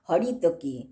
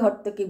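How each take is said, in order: First: The middle vowel is kept, giving four syllables. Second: The middle vowel is dropped, giving three syllables. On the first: This is the proper form of the word. "Actual pronunciation" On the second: This is the everyday way people say it. "হর্তকি বলি যেটাকে আমরা"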